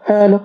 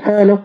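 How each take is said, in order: The two takes are said the same way.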